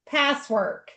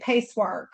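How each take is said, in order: First: The first syllable sounds like 'pass'. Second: The first syllable sounds like 'pace'. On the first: The speaker calls it right. "So you say it Passwork" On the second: The speaker calls it wrong. "I always want to say Pacework"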